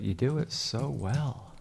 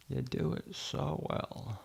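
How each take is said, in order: First: Said in the usual way. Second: Soft hushed take. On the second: Shown as a demonstration. Editor praising himself, soft and slow. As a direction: drop it to a soft, slow murmur.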